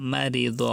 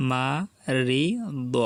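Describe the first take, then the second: First: Said in the usual way. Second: মারিদ stretched very slowly, each sound held; drawn out. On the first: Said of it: "quick plain repeat after drawl". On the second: Shown as a demonstration. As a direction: drawl মারিদ out slowly for learners. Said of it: "teacher drawls then repeats". (মারিদ খুব টেনে ধীরে ধীরে)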